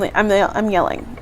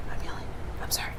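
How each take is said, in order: First: Said in the usual way. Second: Low whisper, fading away; self-hushing whisper. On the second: Real, not acted. Apologizing to viewers for yelling, whispered. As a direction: drop to a whisper, trailing to almost nothing. Hushes herself after yelling.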